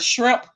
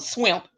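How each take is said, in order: First: The word begins with an 'shr' sound. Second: The word begins with an 'sw' sound. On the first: The speaker calls it right. "if you can't pronounce the word shrimp" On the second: The speaker calls it wrong. "but you call them swimp"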